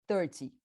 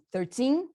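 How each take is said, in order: First: Thirty hit on the first syllable, short falling ty; stress on THIR. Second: Put-on thirteen rising into a long, strong teen; stress on TEEN. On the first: Teacher contrasting with thirteen, thirty stressed on thir. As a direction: punch the start of thirty. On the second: Teacher contrasting with thirty, thirteen stressed on teen. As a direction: push the second syllable of thirteen. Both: Shown as a demonstration. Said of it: "Bota a força onde tá a maior".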